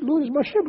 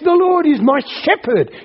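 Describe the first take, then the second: First: It is said casually, without feeling. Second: It is said with joyful, heartfelt conviction.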